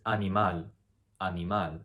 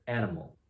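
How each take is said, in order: First: Animal as ah-nee-MAHL, pure vowels; Spanish pronunciation. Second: Said in the usual way. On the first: Shown as a demonstration. Teacher giving the correct answer, animal as ah-nee-MAHL. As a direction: say animal the Spanish way, stress on the last syllable. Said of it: "The correct answer is". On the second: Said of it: "How would you pronounce that in Spanish".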